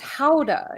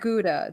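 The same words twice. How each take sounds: First: Gouda is said with the Dutch pronunciation. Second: Gouda is said with the English pronunciation. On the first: The speaker calls it right. "it's Gouda" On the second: The speaker calls it wrong. "It's not Gouda"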